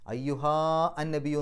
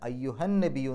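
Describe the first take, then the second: First: The final vowel of ayyuha is held long. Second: The final vowel is short and runs into an-nabiyyu. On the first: The speaker calls it wrong. "എന്ന് പറയില്ല" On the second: The speaker calls it right. "എന്നാണ് പറയാം"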